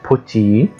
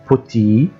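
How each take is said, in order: The two takes are said the same way.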